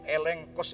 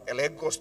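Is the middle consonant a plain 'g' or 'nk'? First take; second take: nk; g. First: The middle is said with an ng-k sound. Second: The middle is said with a plain g sound. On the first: The speaker calls it right. "elenkos itu bacanya" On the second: The speaker calls it wrong. "bukan elegos tuh bacanya"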